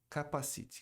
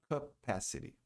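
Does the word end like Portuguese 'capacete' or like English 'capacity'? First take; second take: capacete; capacity. First: It sounds like the Portuguese word capacete. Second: It does not sound like the Portuguese capacete. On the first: The speaker calls it wrong. "Muita gente fala capacite. Capacite parece aquele negócio que você põe na cabeça quando vai andar de moto" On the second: The speaker calls it right. "A pronúncia correta é capacity"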